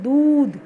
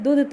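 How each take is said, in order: First: दूध with the दू pressed and held long, doodh; long stressed u. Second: दूध with the u cut short, dudh. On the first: Teacher modelling दूध for pupils, pressing the long u. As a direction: lean on दू in दूध. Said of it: "दू पे हमने दबाव डाला". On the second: Teacher showing pupils the wrong short-u दूध. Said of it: "दूध तो नहीं बोलते". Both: Shown as a demonstration.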